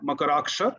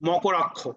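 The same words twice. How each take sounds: First: The name is said with a Sanskrit pronunciation. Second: The name is said with a Bengali pronunciation.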